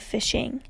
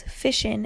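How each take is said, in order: First: Said in the usual way. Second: FISHIN' ending in a plain N; dropped G. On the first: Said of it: "keep the I N G". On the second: Shown as a demonstration. Showing how Eastern Kentuckians shorten it, fishin' with dropped G. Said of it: "commonly shorten it to".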